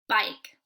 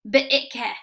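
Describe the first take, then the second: First: The vowel is long and the final E is silent. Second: The vowel is short and the final E is sounded. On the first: The speaker calls it right. "we change the vowel to a long vowel" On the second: The speaker calls it wrong. "instead I did it as a short vowel"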